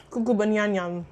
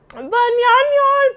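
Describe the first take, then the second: First: Said in the usual way. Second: Much higher, louder and slow, drawn out; goofy, drawn-out hollered banyan yan; silly loud cry. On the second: Pretend. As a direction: belt it out like going cuckoo. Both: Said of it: "am kinda going cray cray".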